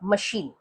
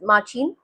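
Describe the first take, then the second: First: The middle consonant is a 'sh' sound. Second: The middle consonant is a 'ch' sound. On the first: The speaker calls it right. "No, it is मशीन" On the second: The speaker calls it wrong. "इसका pronunciation अगर आप spelling के हिसाब से करेंगे तो माचीन होगा"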